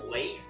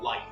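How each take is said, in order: First: The name has an ay vowel and ends in th. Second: The name has a long eye vowel. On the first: "three ways to pronounce this name" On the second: "three ways to pronounce this name"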